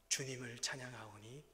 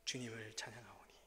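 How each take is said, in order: First: Slow sung 주님을 찬양하오니 with a rising end; sung softly. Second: 주님을 찬양하오니 whispered, unvoiced, falling away; whispered hymn line. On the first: Retold or imitated. Pastor singing the hymn line softly. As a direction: sing 주님을 찬양하오니 slowly, lifting at the end. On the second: Pastor repeating the hymn line in a whisper.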